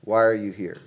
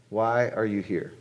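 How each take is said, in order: First: Said in the usual way. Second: Slowed down, each word landing; slower, weightier repeat. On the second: Shown as a demonstration. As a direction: let the question sink in, slow.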